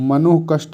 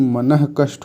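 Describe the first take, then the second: First: The first part ends in an 'o' sound. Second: The first part ends in a breathy 'ah'. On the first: The speaker calls it wrong. "नहीं" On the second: The speaker calls it right. "मनः कष्ट होता है"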